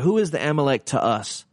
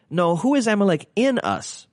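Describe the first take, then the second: First: Said in the usual way. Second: "in" pushed higher to correct "to"; stress on in. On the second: Shown as a demonstration. Pastor correcting his own question, stress on "in". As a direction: lift the word "in" over the rest.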